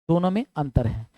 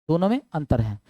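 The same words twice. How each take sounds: The two takes are said the same way.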